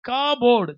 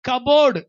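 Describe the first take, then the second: First: The first vowel is drawn out long. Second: The first vowel is short and quick.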